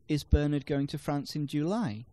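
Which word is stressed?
July. The stress falls on the word July. It questions when he is going. "No, he's going in August"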